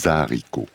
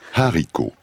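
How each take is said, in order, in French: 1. Le mot est lié au son qui précède. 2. Le mot commence nettement, sans son de liaison. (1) "On ne fait pas la liaison" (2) "se prononce avec un H aspiré"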